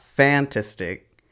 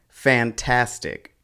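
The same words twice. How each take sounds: First: The stress falls on a syllable other than the middle. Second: The stress falls on the middle syllable. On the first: The speaker calls it wrong. "It's not fantastic" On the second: The speaker calls it right. "The stress falls on the second syllable"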